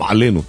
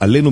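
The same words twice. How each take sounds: First: The word begins with a throat consonant. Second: The word begins directly with a vowel. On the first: The speaker calls it right. "את העין, כן, מודגשת כמובן" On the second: The speaker calls it wrong. "מי שלא יודע להדגיש"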